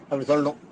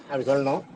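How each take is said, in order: The two takes are said the same way.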